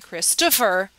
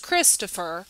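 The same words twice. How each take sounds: First: The stress is on the second syllable. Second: The stress is on the first syllable. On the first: The speaker calls it wrong. "People don't say Christopher" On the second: The speaker calls it right. "the emphasis is on Chris"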